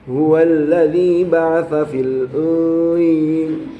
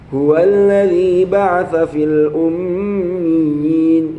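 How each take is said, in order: First: The m is made without the lips touching. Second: The m is made with both lips closing. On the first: The speaker calls it wrong. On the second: The speaker calls it right.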